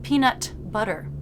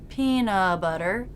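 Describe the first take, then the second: First: The T is fully released before butter. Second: The T is dropped with no stop. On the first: "not peanut butter with a released T" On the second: "peanut butter with no stop"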